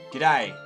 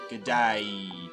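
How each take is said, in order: First: The first word shrinks to a single 'g' sound. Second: Both words are said fully and separately. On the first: "We try and shorten them" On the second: "G'day was originally good day"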